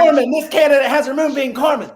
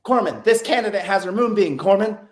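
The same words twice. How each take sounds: First: High, loud mock recruit voice; hammed-up high female candidate voice; mocking the girl. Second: A touch higher, lightly voiced recruit reporting; lightly voiced female candidate; quoting the girl. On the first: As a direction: ham up her report, squeaky and eager. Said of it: "Fucking moonbeam". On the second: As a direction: relay her words with a slight lift. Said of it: "And the girl's like".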